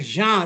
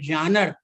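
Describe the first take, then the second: First: The first vowel is nasal, French style. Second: The first vowel is not nasal. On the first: The speaker calls it right. "I pronounce the word as genre because it is a French word" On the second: The speaker calls it wrong. "I have heard it people saying it genre"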